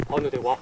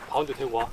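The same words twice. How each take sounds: The two takes are said the same way.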